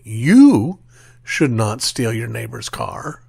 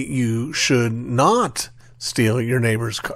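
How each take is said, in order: First: The word "you" carries the stress. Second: The word "steal" carries the stress. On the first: Someone else may be allowed to steal the car. "someone might suggest that we're affirming that someone else has the uh, authority to steal your neighbor's car" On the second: Other harm to the car may be allowed. "the implication is, but you can, you know, smash it up with a sledgehammer"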